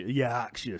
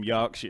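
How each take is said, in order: First: YORKSHIRE said in broad Yorkshire, first vowel wide open; broad Yorkshire accent. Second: Said in the usual way. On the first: Shown as a demonstration. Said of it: "so I talk like this all the time".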